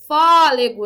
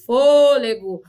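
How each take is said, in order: First: "fôlego" with an open first vowel, FÓ-le-go, louder; open O, wrong way. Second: "fôlego" with a closed first vowel, FÔ-le-go; closed O, right way. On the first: Teacher showing what she doesn't say, "fôlego" with open O. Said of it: "porque eu não falo". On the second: Teacher correcting to what she says, "fôlego" with closed O. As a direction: say "fôlego" with a rounded closed O, stressed first syllable. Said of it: "eu falo". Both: Shown as a demonstration.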